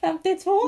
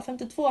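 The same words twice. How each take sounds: First: "Femtiotvå" said higher and louder with a rising end; emphatic repeat. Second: Said in the usual way. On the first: Retold or imitated. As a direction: stress "Femtiotvå" as if it's obvious to dad. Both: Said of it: "Jag bara".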